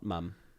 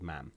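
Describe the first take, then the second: First: The vowel is a 'u' sound as in cup. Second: The vowel is an open 'a' sound. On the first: This is the usual English form. The speaker calls it wrong. "not "mum."" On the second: This is how it is said in Wales. The speaker calls it right. "your mother is called "mam,""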